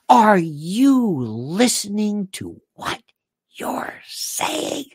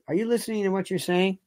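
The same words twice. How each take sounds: First: It is said in a sarcastic tone. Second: It is said in a plain, neutral tone.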